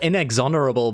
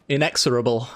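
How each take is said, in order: First: An extra n sound is in the middle. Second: No extra n sound is in the middle. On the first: The speaker calls it wrong. "I call it inexonerable, but there's no N in it" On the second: The speaker calls it right. "is the correct pronunciation of that one"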